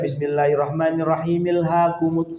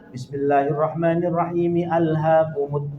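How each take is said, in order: First: The opening vowel of 'al' is dropped and linked. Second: The opening vowel of 'al' is clearly pronounced. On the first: The speaker calls it wrong. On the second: The speaker calls it right. "tetap begitu"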